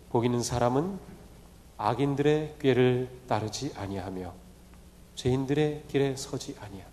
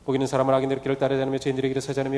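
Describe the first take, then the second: First: The verse is read slowly. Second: The verse is read quickly. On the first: The words can sink in. The speaker calls it right. "좀 천천히" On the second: The words do not sink in. The speaker calls it wrong. "빨리 읽으면 이 묵상이 되지 않습니다"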